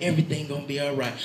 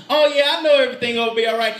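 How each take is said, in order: First: Said in the usual way. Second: Fast, high mock agreement; glib assurance. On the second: Believer saying it in the head, not heart, glib quick assurance. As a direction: rattle it off as head-knowledge only. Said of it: "you say that in your head".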